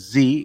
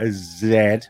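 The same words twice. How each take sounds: First: The letter is said the American way, zee. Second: The letter is said the British way, zed.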